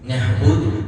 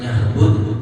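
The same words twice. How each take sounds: Both takes have the same delivery.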